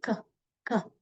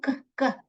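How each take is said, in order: First: क as one short isolated k; single k sound. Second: क, क as two separate k sounds; wrong doubled k. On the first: Teacher modelling c-k as one sound, single k. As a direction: give one short क for both letters. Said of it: "एक ही बार क करके आवाज निकालोगे". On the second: Teacher showing how not to read c-k, doubled k. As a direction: sound क twice, once for each letter. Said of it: "दो बार क, क नहीं पढ़ते हैं". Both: Shown as a demonstration.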